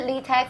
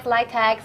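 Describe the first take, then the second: First: "litex" said as LEE-tex; questioned pronunciation. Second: "litex" said as LIE-tex; alternative pronunciation. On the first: Host asks the founder how it's said, "litex" as LEE-tex. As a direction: say "litex" with a long ee first. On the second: Host offers founder the other option, "litex" as LIE-tex. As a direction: say "litex" with first syllable like "lie". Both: Shown as a demonstration. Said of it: "how to pronounce it correctly?".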